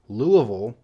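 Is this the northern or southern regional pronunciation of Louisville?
southern. It is said the southern way. "When you get more into the south, you'll hear"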